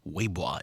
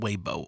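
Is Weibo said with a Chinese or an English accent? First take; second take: Chinese; English. First: It is said with a Chinese accent. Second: It is said with an English accent.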